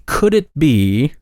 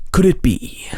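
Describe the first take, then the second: First: Said in the usual way. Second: High breathy whisper, dramatic; ancient alien voice. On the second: Shown as a demonstration. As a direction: whisper it like a conspiracy narrator. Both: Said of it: "let me try my ancient alien voice for this".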